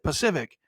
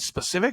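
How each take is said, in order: First: The word begins without an s sound. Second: The word begins with an s sound. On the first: The speaker calls it wrong. "they'll say it wrong back to you again" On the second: The speaker calls it right. "you'll say the word correctly"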